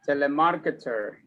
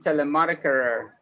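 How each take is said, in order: First: It is said with a non-American pronunciation. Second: It is said with an American pronunciation.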